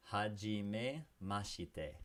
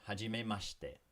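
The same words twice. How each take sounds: First: Hajime mashite drawn out very slowly; very slow model of Hajime mashite; slowed right down. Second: Hajime mashite with the shi clipped to a quick sh; shortened form. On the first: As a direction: stretch Hajime mashite for the learner. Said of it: "repeat after me". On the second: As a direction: swallow the i in mashite. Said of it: "the she can be shortened". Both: Shown as a demonstration.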